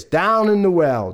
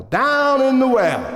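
First: Said in the usual way. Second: High, slow swoop; echoing repeat. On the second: Acted. Storyteller peers down at the fallen father, echoing repeat. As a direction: stretch it up high, then let it fall.

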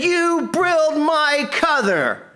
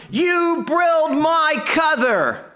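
First: High, slow, furious mock yell; angry yelling. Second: High, slow, furious mock yell; hammed-up rage of a giant pecan log; angry yelling. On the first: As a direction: repeat the hammed-up rage, slow and high. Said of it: "He said". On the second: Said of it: "And he was yelling".

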